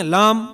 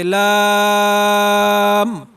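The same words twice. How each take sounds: First: لام clipped short, not stretched; wrong reading. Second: لام drawn out slowly and long; correct reading. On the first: Teacher mimicking students who don't draw it out, a short لام. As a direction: show the unstretched لام. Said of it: "یہ بالکل غلط ہے". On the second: Teacher showing the right way, a drawn-out لام. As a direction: stretch لام out. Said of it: "اس طرح پڑھا جائے". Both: Shown as a demonstration.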